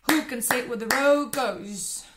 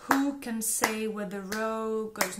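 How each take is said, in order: First: Rushed and loud, racing the rhythm; fastest, loudest take. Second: Rhythm drill, slow start. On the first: Teacher ends the speed drill in a loud rush. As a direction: spit it out at top speed. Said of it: "Last time". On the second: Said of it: "I will go faster and faster". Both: Shown as a demonstration.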